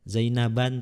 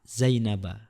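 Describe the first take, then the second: First: The word ends with an added n sound. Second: The word ends on a plain a vowel. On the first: The speaker calls it wrong. "tidak boleh" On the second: The speaker calls it right. "harus dibaca fathah"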